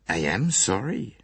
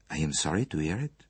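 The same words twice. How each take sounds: First: AM drawn out with rising pitch; "am" held and emphasised; stress on AM. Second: Said in the usual way. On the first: A narrator's reading. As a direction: lean slowly on "am" to insist. Insists after being contradicted.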